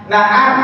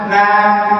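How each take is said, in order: No difference in how they are said.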